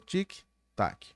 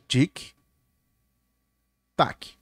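First: The two syllables follow each other quickly. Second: The two syllables are spaced slowly apart. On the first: The game clock runs at normal speed. "Essa é a velocidade fora de missão" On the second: The game clock runs at half speed. "Perceberam que é duas vezes mais lento?"

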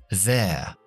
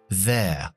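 First: It is said as one contracted syllable. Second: The same.

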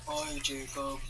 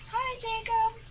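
First: It is said in a very low voice. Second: It is said in a somewhat higher voice.

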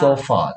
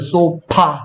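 First: The middle consonant is an F sound. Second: The middle consonant is a P sound. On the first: The speaker calls it right. "F인데" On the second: The speaker calls it wrong. "sofa가 아니라"

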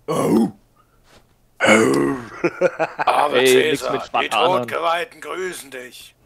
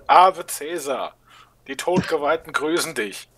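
First: The voice is pitched deeper than before. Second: The voice is in a higher, normal pitch. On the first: The speaker calls it right. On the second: The speaker calls it wrong.

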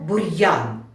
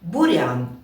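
First: A hard r, then a separate y sound. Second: A soft r blends into the vowel. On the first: "Слово «бур'ян»" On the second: "Я скажу його без апострофу"

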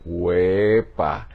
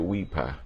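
First: The first vowel sounds like 'e'. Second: The first vowel sounds like 'i'. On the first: The speaker calls it right. "se dice huepa" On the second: The speaker calls it wrong. "no se dice huipa"

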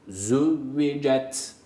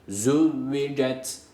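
No difference in how they are said.

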